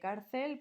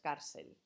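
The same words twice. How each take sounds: First: The second c sounds like th. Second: The second c sounds like s. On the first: "En vez de cárcel" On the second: "Yo a mí me sale muy mal, lógicamente, pero bueno, que sería así"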